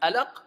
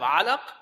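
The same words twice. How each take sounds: First: The word begins with a plain vowel, no ayn. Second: The word begins with a throaty ayn sound. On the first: It means brightness or radiance. The speaker calls it wrong. "if you don't pronounce the ayn correctly" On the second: It means a blood clot. The speaker calls it right. "instead of alaq"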